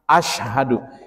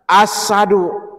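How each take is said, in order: First: The middle consonant is a 'sh' sound. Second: The middle consonant is a plain 's' sound. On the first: The speaker calls it right. "Kalau kita kan ashadu" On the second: The speaker calls it wrong. "Jangan baca ashadu itu uh, sembarangan"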